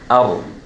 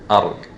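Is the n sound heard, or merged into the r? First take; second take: merged; merged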